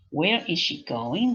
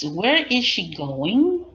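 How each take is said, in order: First: Said in the usual way. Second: Slow and louder; slow model question. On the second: Shown as a demonstration. Teacher repeating a student's answer, slow.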